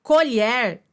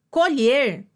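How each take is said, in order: First: "Colher" with open e, co-lhér; pronúncia do substantivo. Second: "colher" with closed e, co-lhêr; pronúncia do verbo. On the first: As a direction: say "Colher" as the noun, open é in the last syllable. ("Colher" com e aberto, colhér) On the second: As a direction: say "colher" as the verb, closed ê in the last syllable. ("colher" com e fechado, colhêr) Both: Shown as a demonstration. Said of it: "pronúncia distinta".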